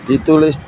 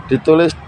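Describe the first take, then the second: No difference in how they are said.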